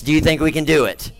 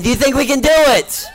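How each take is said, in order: First: Said in the usual way. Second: Pushing the crowd to shout back; louder, higher ask. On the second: Shown as a demonstration. Showman re-asking the crowd much higher and louder. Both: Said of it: "two people think we can".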